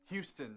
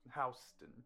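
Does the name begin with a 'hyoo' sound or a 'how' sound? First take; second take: hyoo; how. First: The name begins with a 'hyoo' sound. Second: The name begins with a 'how' sound. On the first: It names the city in Texas. The speaker calls it right. "Texas. Houston" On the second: It names the street near the East Village. The speaker calls it wrong. "not Houston"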